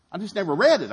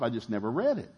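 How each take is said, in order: First: Higher, louder I just never read it, punching read; emphatic repeat. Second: Said in the usual way. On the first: Shown as a demonstration. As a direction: shout it out for emphasis.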